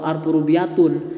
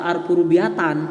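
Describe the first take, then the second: First: The last word ends in the vowel u plus n. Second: The last word ends in the vowel a plus n. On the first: "atau alfu rubiatun" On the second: "tidak dibaca alfu rubiatan"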